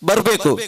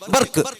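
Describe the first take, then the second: First: The word is said in full standard form. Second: The word is cut short in local dialect.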